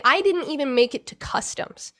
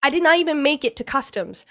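First: Said in the usual way. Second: "did not" split apart, "not" leaned on and falling; stress on not. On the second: Real, not acted. Retelling the landing to the host, "not" stressed and falling.

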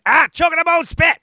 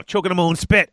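First: High, fast quoted delivery; quoted reference line. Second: Said in the usual way. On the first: Pretend. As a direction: squeak it out high and quick. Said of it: "if anyone gets that reference".

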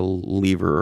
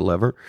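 First: Lever said as LEE-ver; long-e pronunciation. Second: Lever said as LEV-er; short-e pronunciation. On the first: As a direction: say lever with a long ee, rhyming with beaver. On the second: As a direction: say lever with a short e, rhyming with never. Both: Shown as a demonstration. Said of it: "depending on whether you're a lever or a lever".

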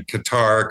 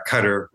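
First: Qatar with stress on TAR; Qatar as "kuh-TAR". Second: Qatar stressed up front, KUT-er; Qatar as "cutter". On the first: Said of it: "rather than". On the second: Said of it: "I say". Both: Shown as a demonstration.

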